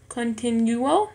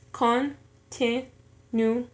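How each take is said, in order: First: Said in the usual way. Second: Very slow "continuo", con, ti, nu, o; syllable by syllable. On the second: Shown as a demonstration. Learner showing four syllables in an exercise, "continuo" syllable by syllable. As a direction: say "continuo" in four separate pieces. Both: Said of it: "en cuatro sílabas".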